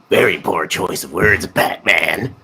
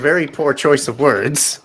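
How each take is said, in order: First: It is said in a Joker impression. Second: It is said in a normal voice.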